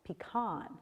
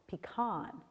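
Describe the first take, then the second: First: It is said the majority US way. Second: It is said the majority US way.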